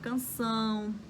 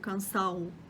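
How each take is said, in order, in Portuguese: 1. A vogal final é nasalizada, com som pelo nariz. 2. A vogal final é oral, sem nasalização. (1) "hoje eu consigo falar canção" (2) "vai ficar uma coisa como cansão"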